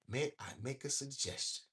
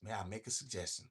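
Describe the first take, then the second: First: It is read at a slow pace. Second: It is read at a quick pace.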